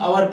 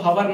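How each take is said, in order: First: The word begins with a vowel, h silent. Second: The word begins with a pronounced h sound. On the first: The speaker calls it right. "अवर पढ़ते हैं" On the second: The speaker calls it wrong. "ये wrong हो जाएगा, इसको हवर नहीं"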